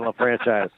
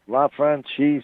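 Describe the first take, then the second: First: The name is given an English pronunciation. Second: The name is given a French pronunciation. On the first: This is how the family says it. "they don't say it that way" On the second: This is the speaker's preferred form. "I like this much better"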